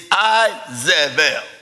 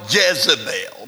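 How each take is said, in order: First: The name begins without a J sound. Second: The name begins with a J sound. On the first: The speaker calls it right. "there's no J in the Hebrew language, so it was actually the correct pronunciation is Isabel" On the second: The speaker calls it wrong. "We call her Jezebel"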